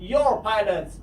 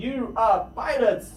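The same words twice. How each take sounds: First: Said in the usual way. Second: Slow You are, said apart; careful full form You are; drawn out You are. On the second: Shown as a demonstration. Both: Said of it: "باید شما اینها رو حتماً بدونید".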